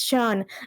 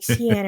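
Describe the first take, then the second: First: The name begins with an SH sound. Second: The name begins with a hard K sound. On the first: This is how the name is actually said. The speaker calls it right. "No, it's Sean" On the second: This is how the spelling looks to a newcomer. The speaker calls it wrong. "it looks like Cian or something like that"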